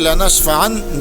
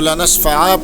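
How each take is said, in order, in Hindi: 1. शब्द n की आवाज़ पर खत्म होता है। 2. शब्द लंबे स्वर पर खत्म होता है।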